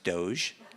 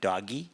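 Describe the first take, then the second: First: The word is said with one syllable. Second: The word is said with two syllables. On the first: The speaker calls it right. "but I think it's pronounced Doge" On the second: The speaker calls it wrong. "when it first came out, I pronounced it doggy"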